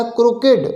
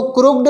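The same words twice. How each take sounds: First: Teacher giving the right form क्रुकेड, three syllables, kru-ke-d; correct pronunciation. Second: Teacher saying the wrong form क्रुक्ड, clipped to two syllables with no vowel before the d; क्रुक्ड squeezed into two syllables as the mistaken version; wrong pronunciation. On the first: Teacher correcting students on crooked, क्रुकेड said in three clear syllables. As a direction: spell out क्रुकेड clearly with the middle e sounded. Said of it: "ये क्या है?".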